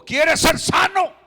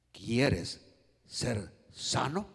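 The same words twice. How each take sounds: First: Loud, high, emphatic shout; shouted question. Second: Low and drawn out, word by word; slow gentle question. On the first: Preacher voicing Jesus' question to the paralytic, shouted. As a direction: belt the question out to the whole room. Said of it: "cuando Jesús le preguntó". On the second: Preacher voicing Jesus to the paralytic, slow low question. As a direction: pause between words, lift the last one. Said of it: "Cómo cree usted ... Jesús le dijo". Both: Acted.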